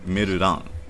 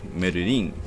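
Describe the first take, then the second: First: The last syllable has an 'a' vowel. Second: The last syllable has an 'i' vowel. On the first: This is how the name is actually said in Japanese. "with an A, not, not an I" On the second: This is how one would expect the name to be said. "You you expect it to be pronounced like"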